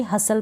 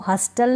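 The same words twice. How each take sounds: First: "हसल" with a silent T; correct pronunciation. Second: "हस्टल" with the T sounded; mispronounced "हस्टल", T not silent; wrong pronunciation. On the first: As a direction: leave the T out of "हसल". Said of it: "T इसमें silent है". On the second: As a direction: put a hard T after S in "हस्टल". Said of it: "हस्टल नहीं पढ़ूंगी". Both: Shown as a demonstration.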